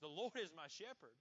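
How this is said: The voice sounds firm and confident. The speaker knows it is true. The speaker calls it right. "Say it with confidence"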